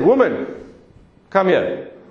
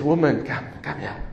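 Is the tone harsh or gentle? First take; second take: harsh; gentle. First: It is said in a harsh, commanding tone. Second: It is said in a gentle, tender tone.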